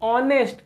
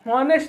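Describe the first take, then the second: First: The word begins with a vowel, no h. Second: The word begins with an h sound. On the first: The speaker calls it right. "नहीं ऑनेस्ट" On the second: The speaker calls it wrong. "हॉनेस्ट नहीं"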